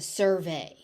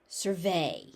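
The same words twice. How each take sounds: First: The stress is on the first syllable. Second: The stress is on the second syllable. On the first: It is used as a noun. "So for a noun, it's a survey" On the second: It is used as a verb. "As a verb, you survey"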